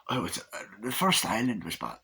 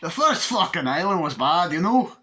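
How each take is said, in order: First: Quiet, fumbled character voice; low-key failed impersonation; botched impression. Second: Higher, louder exaggerated character voice; raised-pitch mock impersonation; retried impression. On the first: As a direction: try out a movie voice half-heartedly. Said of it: "What the fuck was that?". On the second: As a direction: have another go at the movie voice, hammed up. Second go at botched impression.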